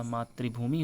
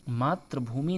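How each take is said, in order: First: मातृभूमि as "matri-bhumi"; correct pronunciation. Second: मातृभूमि as "matr-bhumi"; incorrect pronunciation. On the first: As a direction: say मातृभूमि with I after TR. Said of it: "मातृभूमि होता है". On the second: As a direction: say मातृभूमि without I after TR. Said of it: "नहीं होता". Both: Shown as a demonstration.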